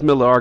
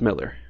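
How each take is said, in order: First: The last syllable is said with an 'ar' sound. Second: The last syllable is said with an 'er' sound. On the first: The speaker calls it wrong. "Everybody says Millar because it's got an A instead of an E" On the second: The speaker calls it right. "but it's pronounced Miller"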